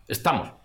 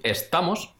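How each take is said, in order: First: "estamos" with an aspirated T; Extremaduran aspirated T. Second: Said in the usual way. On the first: Shown as a demonstration. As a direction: say the T in "estamos" with a puff of breath. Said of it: "una T que es como aspirada". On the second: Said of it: "En vez de decir estamos".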